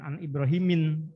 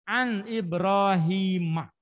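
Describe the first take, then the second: First: The name ends with an 'in' sound. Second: The name ends with an 'a' vowel. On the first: The speaker calls it wrong. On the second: The speaker calls it right.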